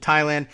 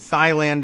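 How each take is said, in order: First: The word begins with a plain T sound. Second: The word begins with a breathy TH sound. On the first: This is the usual anglicized way of saying it. "as opposed to Thailand" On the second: This is how a commentator insisted it should be said. "His pronunciation of Thailand"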